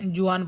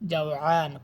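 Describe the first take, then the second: First: The first vowel sounds like 'oo'. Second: The first vowel sounds like 'aa'. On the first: The speaker calls it wrong. "অনেকে জুয়ান বলেন, এটা জুয়ান হবে না" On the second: The speaker calls it right. "তো জাওআন ক্ষুধার্ত"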